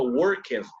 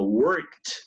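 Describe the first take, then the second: First: The ending is not said as a T sound. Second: The ending is said as a T sound. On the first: The speaker calls it wrong. "no sonó worked" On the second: The speaker calls it right. "sino worked, worked, como una T"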